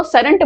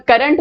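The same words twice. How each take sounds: First: सरंट, current begun with an s; wrong first consonant. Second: Said in the usual way. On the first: Shown as a demonstration. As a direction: swap the opening k of current for s, सरंट. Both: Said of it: "करंट को सरंट बोल दिए".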